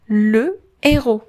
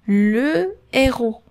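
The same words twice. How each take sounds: Both takes have the same delivery.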